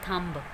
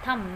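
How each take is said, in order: First: The word ends with a b sound. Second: The word ends on the m sound. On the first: The speaker calls it wrong. "Not थम्ब" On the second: The speaker calls it right. "This is थम"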